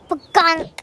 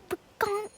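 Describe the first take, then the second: First: Loud, higher comic "pagonk"; imitated impact noise. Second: Soft, high-pitched comic "pagonk"; imitated impact noise. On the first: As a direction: blurt out a sudden sound effect. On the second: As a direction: repeat the sound effect softly. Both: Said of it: "it was just like".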